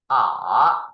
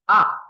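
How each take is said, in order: First: The pitch dips low, then rises. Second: The pitch falls sharply from high to low. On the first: "third tone is R" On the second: "And fourth tone is R"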